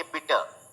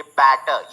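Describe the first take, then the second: First: "बिटर" with a short i, softer; short i in bitter. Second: "बैटर" with a wide a; open a in batter. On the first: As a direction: say "बिटर" with i as in sit. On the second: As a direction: open the vowel of "बैटर" as in cat. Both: Shown as a demonstration. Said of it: "तो अलग-अलग sound है".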